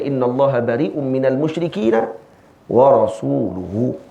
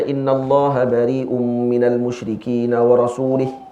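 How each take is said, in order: First: The last word ends with a 'u' vowel. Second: The last word ends with an 'i' vowel. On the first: His messenger also disowns the idolaters. The speaker calls it right. "Ayat baca wa rasuluhu" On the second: God also disowns His messenger. The speaker calls it wrong. "Baca macam ni dia kata jenuh"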